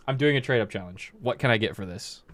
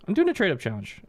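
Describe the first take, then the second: First: Flat, blunt "I'm doing a trade-up challenge" at normal pitch; rude kid. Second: Much higher, friendly eager "I'm doing a trade up challenge"; polite kid. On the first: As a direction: say it curtly like an entitled kid. Rude typical kid contrasted. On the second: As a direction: ask it sweetly like a nice kid. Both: Retold or imitated.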